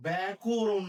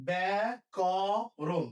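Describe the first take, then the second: First: ব্যাকরণ as "bæ-ku-run"; wrong middle vowel. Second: ব্যাকরণ as bæ-kɔ-ron, open middle vowel; slow model pronunciation. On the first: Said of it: "না কিন্তু". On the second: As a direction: stretch each syllable of ব্যাকরণ, "kaw" open. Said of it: "এর মতো হবে". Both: Shown as a demonstration.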